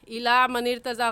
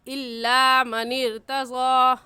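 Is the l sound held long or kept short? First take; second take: short; long. First: The l sound is short and not held. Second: The l sound is doubled with a slight hold. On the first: The speaker calls it wrong. "गलत है" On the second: The speaker calls it right. "सही है"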